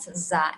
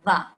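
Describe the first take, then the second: First: The sound is a plain Z. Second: The sound is emphatic with the tongue out. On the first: The speaker calls it wrong. "It's not za" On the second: The speaker calls it right. "Your tongue should be out"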